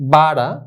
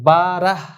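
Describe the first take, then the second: First: The word ends without any h sound. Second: The word ends with an audible h sound. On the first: The speaker calls it right. "শেষে যে হে বর্ণ আছে এটা উচ্চারণে আসবে না" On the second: The speaker calls it wrong. "বারাহ এরকম না"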